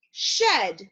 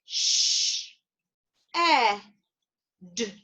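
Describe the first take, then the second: First: Said in the usual way. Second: "Sh-, e-, d" as three separate phonemes with long pauses; sounded out. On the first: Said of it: "bring it back together and say it together". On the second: Shown as a demonstration. Teacher leading learners through the word's phonemes, sounded out slowly. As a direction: break "shed" slowly apart, sound by sound. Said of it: "let's sound out that word".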